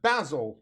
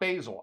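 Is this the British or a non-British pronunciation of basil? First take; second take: British; non-British. First: It is said the way British speakers say it. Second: It is said the way non-British speakers say it. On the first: "In the U K, they pronounce it basil" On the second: "not basil"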